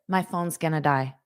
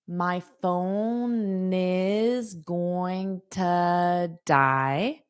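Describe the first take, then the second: First: Words are contracted and run together smoothly. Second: Every word is said separately and in full. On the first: The speaker talks like a fluent native. "as a native" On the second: The speaker is still learning the language. "as a beginner"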